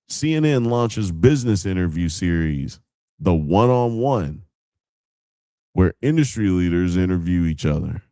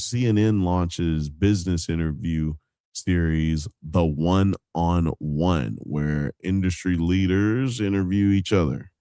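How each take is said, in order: First: It is read in a livelier, more dramatic way. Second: It is read in a plain, flat way. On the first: "Maybe if I say it, I'm gonna say it different" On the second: "That shit sounds boring as fuck"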